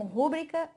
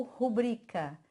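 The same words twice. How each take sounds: First: Rúbrica stressed on the first syllable RU. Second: Rubrica stressed on the middle syllable BRI. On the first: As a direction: hit RU at the start of rúbrica. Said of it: "errando em relação à acentuação". (rúbrica com a tônica no RU) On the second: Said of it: "o bri que é tônico". (rubrica com a tônica no BRI) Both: Shown as a demonstration.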